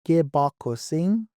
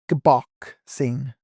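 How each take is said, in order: First: Every vowel in the word is pronounced fully. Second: An unstressed vowel is dropped from the word. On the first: "Western style, they don't practice syncopation, so they'll pronounce all their vowel sounds" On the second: "whereas in the East, we pronounce it"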